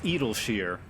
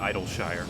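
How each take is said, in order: First: The name begins with an 'ed' sound. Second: The name begins with an 'eye' sound. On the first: The speaker calls it right. "apparently it's Edelshire" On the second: The speaker calls it wrong. "I still habitually call it Idleshire"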